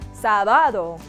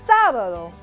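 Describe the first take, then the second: First: The stress is on a later syllable. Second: The stress is on the first syllable. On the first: The speaker calls it wrong. "We don't say sábado" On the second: The speaker calls it right. "the accent directs our emphasis towards the first syllable, and we say sábado"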